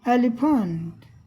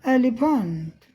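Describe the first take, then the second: No difference in how they are said.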